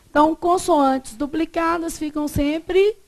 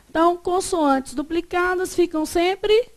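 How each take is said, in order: Both takes have the same delivery.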